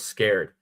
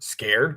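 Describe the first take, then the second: First: The voice stays flat or falls at the end. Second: The voice rises at the end, like a question. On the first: The speaker calls it wrong. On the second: The speaker calls it right.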